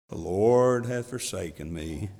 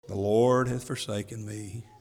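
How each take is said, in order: First: It is read in a gloomy, mopey donkey voice. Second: It is read in the speaker's normal voice.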